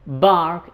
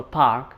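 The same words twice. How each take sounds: First: Park said with a B, as bark; voiced B opening on bark; Arabic speaker's B-for-P slip in bark. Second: Park opened with a puffed P; park with a crisp P, not a B; clear P. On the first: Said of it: "they tend to say". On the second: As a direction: puff the P in park. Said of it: "instead of a". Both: Shown as a demonstration.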